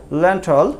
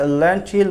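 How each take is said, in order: First: ল্যান্টল ending in "tol", no ee sound; corrected pronunciation. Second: ল্যান্টিল ending in a clear "teel"; common variant pronunciation. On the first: Teacher correcting the common habit, ল্যান্টল with "-tol". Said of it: "উচ্চারণ করা হচ্ছে ল্যান্টল". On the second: Teacher showing what many people say, ল্যান্টিল with "-teel". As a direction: say ল্যান্টিল with an ee vowel in the last syllable. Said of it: "এটাকে আমরা অনেকে ল্যান্টিল বলি". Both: Shown as a demonstration.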